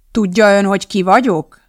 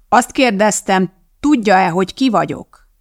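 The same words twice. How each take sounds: First: Said in the usual way. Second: Insistent, raised-voice repeat; pressing the question, mildly raised; louder repeat. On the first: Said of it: "ismételte most már hangosabban". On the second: A narrator's reading. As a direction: repeat it more forcefully, word by word. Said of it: "ismételte most már hangosabban Lebensmal".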